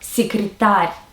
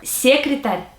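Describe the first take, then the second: First: The stress follows the Russian word pattern. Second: The stress follows the English word pattern. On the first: The speaker calls it right. "instead of" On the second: The speaker calls it wrong. "copy the stress from their first language"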